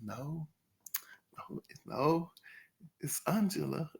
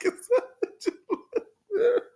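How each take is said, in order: First: Soft, firm "no, no, it's Angela"; quiet firm correction. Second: High, slow "It's Angela" through laughter; laughing mimicry. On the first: Retold or imitated. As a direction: correct them quietly but firmly. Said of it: "Angela was like". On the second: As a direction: laugh while you mimic her. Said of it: "this is just like".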